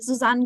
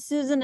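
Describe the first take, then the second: First: The name is said with a German pronunciation. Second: The name is said with an American pronunciation. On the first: "the right pronunciation would be" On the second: "the American version would be Susan as well"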